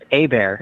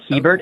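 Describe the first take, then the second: First: The name is pronounced the French way. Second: The name is pronounced the English way. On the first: "proper pronunciation is Hebert. It's uh, Cajun French" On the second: "but Hebert is fine"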